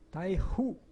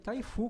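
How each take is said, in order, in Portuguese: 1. A segunda sílaba começa com um h suave e sussurrado. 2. A segunda sílaba começa com um f firme. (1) "tirar um pouco do F e pôr um pouco do, do, do, do H" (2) "taifu com fu, fu como a gente fala aqui no Brasil"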